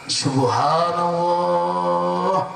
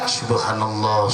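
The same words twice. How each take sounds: First: The phrase is recited slowly. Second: The phrase is recited quickly. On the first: "Kalau dibaca lama" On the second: "bacanya cepat"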